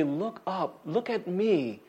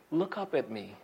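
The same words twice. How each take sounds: First: Tender reassurance. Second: Tender parent. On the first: God lifting up our head. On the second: Parent lifting child's chin. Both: Retold or imitated.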